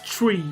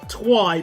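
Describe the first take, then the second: First: The word begins with a ch sound. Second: The word begins with a tw sound. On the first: The speaker calls it right. "but it's tree" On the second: The speaker calls it wrong. "So I just think twi"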